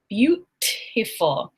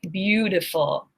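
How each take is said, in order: First: The middle consonant is a clear T sound. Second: The middle consonant is a soft D sound. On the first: The speaker calls it wrong. "I do not say beautiful" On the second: The speaker calls it right. "I say beautiful. That T ... becomes a D"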